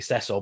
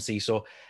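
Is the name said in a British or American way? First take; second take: British; American. First: The name is said the British way. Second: The name is said the American way.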